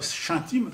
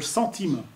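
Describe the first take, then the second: First: The word begins with a sh sound. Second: The word begins with an s sound. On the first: The speaker calls it wrong. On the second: The speaker calls it right.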